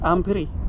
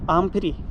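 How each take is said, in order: Both takes have the same delivery.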